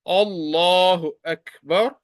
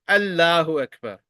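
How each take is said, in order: First: The L sound is heavy and thick. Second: The L sound is light and thin. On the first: The speaker calls it right. "will be pronounced as thick" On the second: The speaker calls it wrong. "You will not pronounce it like"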